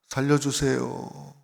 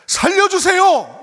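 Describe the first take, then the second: First: It is said quietly and weakly. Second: It is shouted in a loud voice.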